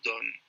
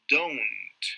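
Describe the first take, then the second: First: The word ends without a t sound. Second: The word ends with a clear t sound. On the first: The speaker calls it wrong. "no se dice don" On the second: The speaker calls it right. "Hay una T de Tito al final"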